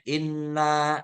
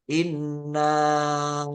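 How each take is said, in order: First: The final vowel is held briefly, two beats. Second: The final vowel is stretched out, four beats. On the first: No glottal stop follows in the next word. "Inna dua harokat aja. Inna gitu kan pendek" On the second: A glottal stop follows in the next word. "Nanya harus empat harokat karena ada hamzah pada arsalna"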